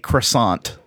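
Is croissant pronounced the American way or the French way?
American. It is pronounced with an American English pronunciation. The speaker is ordering at an ordinary supermarket. "if I'm like ordering from Publix, I say croissant"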